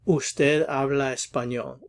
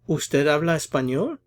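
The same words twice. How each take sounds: First: The pitch drops slightly at the end. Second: The pitch rises slightly at the end. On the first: It is a statement. "It drops off a little bit at the end" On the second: It is a yes or no question. "a little bit of a rise in intonation towards the end"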